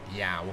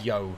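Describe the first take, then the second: First: The vowel sounds like 'ow'. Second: The vowel sounds like 'oh'. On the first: The speaker calls it wrong. "not Yao" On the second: The speaker calls it right. "it's actually so, Yo"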